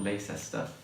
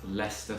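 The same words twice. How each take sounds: First: The name is said the way outsiders often say it. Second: The name is said the way locals say it. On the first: The speaker calls it wrong. "not Leicester, as many people uh, seem to say" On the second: The speaker calls it right. "it's actually pronounced Leicester Square"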